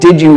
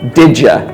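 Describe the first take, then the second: First: The word 'you' is said in full. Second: The word 'you' is reduced to 'ya'. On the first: The speaker calls it wrong. "instead of saying" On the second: The speaker calls it right. "it's better to say"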